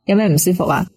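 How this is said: It is said in a firm, stern tone.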